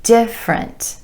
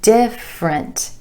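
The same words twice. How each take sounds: First: The word is said with two syllables. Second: The word is said with two syllables.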